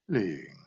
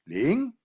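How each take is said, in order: First: The pitch falls across the word. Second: The pitch rises across the word. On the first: "One is descending"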